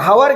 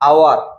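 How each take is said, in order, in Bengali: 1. শব্দটি h ধ্বনি দিয়ে শুরু হয়। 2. শব্দটি স্বরধ্বনি দিয়ে শুরু হয়। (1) "ଏଟା କଣ ହାୱାର କି?"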